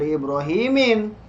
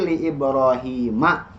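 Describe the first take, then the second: First: The name ends with an 'in' sound. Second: The name ends with an 'a' sound. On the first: The speaker calls it wrong. "bukan li Ibrahimin" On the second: The speaker calls it right. "tapi li Ibrahima"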